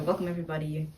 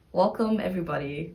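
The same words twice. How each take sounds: First: Said in the usual way. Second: Energetic intro. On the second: Real, not acted. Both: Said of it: "I'll just start with".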